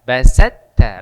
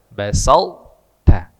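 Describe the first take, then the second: First: The heavy t merges straight into the light t. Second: A heavy t is held before the light t. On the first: The speaker calls it wrong. "Jadi bukan la im basatta, basatta langsung ke ta" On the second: The speaker calls it right. "basal tebal baru masuk ta"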